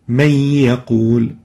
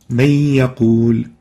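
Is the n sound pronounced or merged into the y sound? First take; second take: merged; merged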